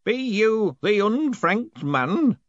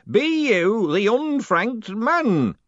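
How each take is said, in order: First: Put-on very slow, growling old man voice; growling old postman. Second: Put-on very slow, menacing old man voice; menacing old postman. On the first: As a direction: growl it out slowly. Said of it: "growled one of them". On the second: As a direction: drag it out with menace. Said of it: "real menace in the voice". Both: A narrator's reading.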